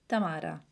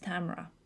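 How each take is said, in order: First: The name has an Italian pronunciation. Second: The name has an American pronunciation. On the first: "in Italy it's Tamara" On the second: "In America it's Tamara"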